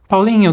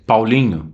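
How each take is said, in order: First: The name is called in a playful tone. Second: The name is called in a serious tone. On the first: Everything is fine with the pet. "so you change your tonality" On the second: The pet is doing something bad. "like a little bit more serious"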